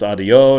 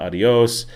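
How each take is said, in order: First: "adio", cut the last sound off; "adio" with the final s swallowed; dropped final s. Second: "adios", keep the s at the end; "adios" said the textbook way; full adios. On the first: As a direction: say "adio" with no s at the end. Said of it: "not "adios". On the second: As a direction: say "adios" with a clear final s. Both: Shown as a demonstration.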